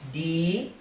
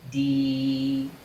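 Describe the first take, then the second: First: The word is said with a high tone. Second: The word is said with a mid tone. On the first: It emphasizes the quality strongly. "to high tone D" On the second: The ordinary form of the word. "from mid tone D"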